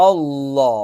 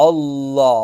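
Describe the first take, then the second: No difference in how they are said.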